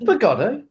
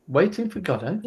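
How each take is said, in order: First: FOR GODOT pitched high, rising into a question. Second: Said in the usual way. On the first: Shown as a demonstration. Repeating the last words back as a question, questioning. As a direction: echo "For Godot" as a puzzled question, much higher. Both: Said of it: "like, questioning".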